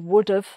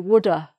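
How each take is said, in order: First: The V sound is pronounced at the end. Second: The V sound is dropped at the end. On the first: "People say would have" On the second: "some people don't pronounce the V in would have. They just say woulda"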